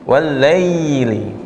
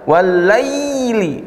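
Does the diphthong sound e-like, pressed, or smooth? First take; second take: smooth; pressed. First: The diphthong glides smoothly and lightly into y. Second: The diphthong is forced with heavy pressure. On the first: The speaker calls it right. "Yang benar walai, walaili" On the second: The speaker calls it wrong. "jangan juga kelewatan... Ditekan di tengah lidahnya"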